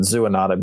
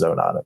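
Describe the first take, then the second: First: "zoonotic" begun like "zoo", zoo-uh-NOT-ic; smart people's pronunciation. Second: "zoonotic" begun with a long oh, like "zo"; dummies' pronunciation. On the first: Vet cites the really smart people, "zoonotic" with a zoo start. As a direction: say "zoonotic" with an oo in the first syllable. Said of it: "the really smart people pronounce it". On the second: Vet jokes about dummies like himself, "zoonotic" with a zo start. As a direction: say "zoonotic" as zo-NOT-ic, lower. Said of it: "but for dummies like me". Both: Shown as a demonstration.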